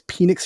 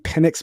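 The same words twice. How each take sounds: First: The E vowel is emphasized and drawn out. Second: The E vowel is said plainly, without emphasis. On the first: The speaker calls it right. "Penix just sounds so much better" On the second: The speaker calls it wrong. "Instead of saying Penix"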